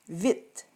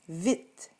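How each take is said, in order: The two takes are said the same way.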